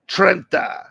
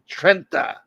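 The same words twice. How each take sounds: First: "Trenta" said the Italian way, higher, rolled r; "Trenta" with a light Italian lilt; Sicilian pronunciation. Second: "Trenta" repeated with Italian vowels and tapped r; lightly mock Sicilian "Trenta"; "Trenta" in a hint of Sicilian accent; Sicilian pronunciation. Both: Shown as a demonstration. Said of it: "as they say in Sicilian".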